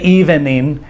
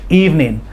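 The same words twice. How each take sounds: First: The word is drawn out with a full middle syllable. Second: The word is cut short, dropping the middle syllable. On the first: The speaker calls it wrong. "We don't say evening" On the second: The speaker calls it right. "We cut it short is how we say it in American English"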